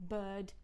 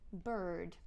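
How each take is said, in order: First: "Bird" with a long vowel and no R; Southern British "Bird", R dropped; non-rhotic. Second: "bird" with the R clearly pronounced; rhotic-accent "bird", R sounded. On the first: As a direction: leave the R silent in "Bird". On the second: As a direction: curl the tongue into the R of "bird". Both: Shown as a demonstration. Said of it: "that sounds very different".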